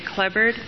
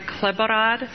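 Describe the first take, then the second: First: The surname is said with the local Atwood pronunciation. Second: The surname is said with its Bohemian pronunciation. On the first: "in Atwood they just say Klebard" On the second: "That's the Bohemian pronunciation"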